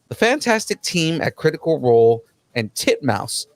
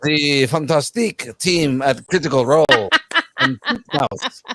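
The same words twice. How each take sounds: First: It is read in a plain, ordinary accent. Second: It is read in a put-on French accent. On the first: The speaker calls it wrong. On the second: The speaker calls it right.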